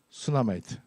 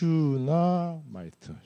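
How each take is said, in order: First: The word begins with a plain s sound. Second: The word begins with a sh sound. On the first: "그냥 한국식으로 하면" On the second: "슈, 에스 에이치 유"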